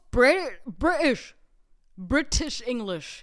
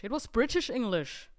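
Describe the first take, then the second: First: Mock posh British accent, louder. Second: Said in the usual way. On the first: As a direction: exaggerate a British "British", loud and crisp.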